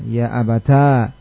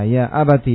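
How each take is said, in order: First: The phrase ends in a long a vowel. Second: The phrase ends in a short i vowel. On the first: "mengumpulkan antara ta dengan alif" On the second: "membacanya dengan mengganti ya-nya dengan ta"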